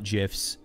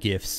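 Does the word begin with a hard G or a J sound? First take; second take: J sound; hard G. First: The word begins with a soft J sound. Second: The word begins with a hard G sound. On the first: The speaker calls it wrong. "not GIFs. For me, Jif is peanut butter" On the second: The speaker calls it right. "I call them GIFs"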